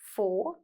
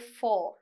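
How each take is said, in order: First: The word is said with a weak, reduced vowel. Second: The word is said with a full, strong vowel. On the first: "the weaker sound here, sometimes we pronounce it as four" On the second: "there's also the sound that you say four"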